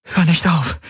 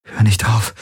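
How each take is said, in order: First: Much higher, begging voice; high-pitched desperate plea; pleading. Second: Lightly acted panting, slightly raised pitch; a touch breathless, imploring; gasped plea. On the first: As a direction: implore in a high, acted female character voice. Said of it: "flehte sie". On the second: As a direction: gasp it out mildly, a little higher. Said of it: "keuchte sie". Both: A narrator's reading.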